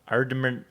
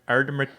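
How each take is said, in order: No difference in how they are said.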